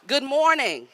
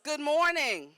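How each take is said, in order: First: It is said with high, enthusiastic energy. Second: It is said with ordinary, low energy.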